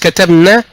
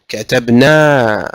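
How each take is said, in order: First: The final vowel is cut short. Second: The final vowel is held long. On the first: It carries a different meaning. The speaker calls it wrong. "just كتبنا, it will give another meaning" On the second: It means we wrote. The speaker calls it right. "prolong the noon"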